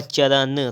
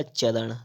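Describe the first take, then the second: First: चरण with a dental n; wrong pronunciation. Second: चरण with retroflex ṇ; correct pronunciation. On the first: Teacher reading the error, चरण with dental n. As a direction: end चरण on plain n. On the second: Teacher correcting, चरण with retroflex ṇ. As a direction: curl back to end चरण. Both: Shown as a demonstration. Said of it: "तो हो जाएगा आपका".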